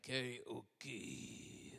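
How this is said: It is said with a Japanese-style pronunciation.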